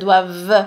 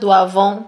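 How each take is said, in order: First: The ending is silent after the consonant. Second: The ending is pronounced as a nasal vowel. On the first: The speaker calls it right. "Eh bien non, c'est" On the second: The speaker calls it wrong. "Les enfants ont tendance à dire"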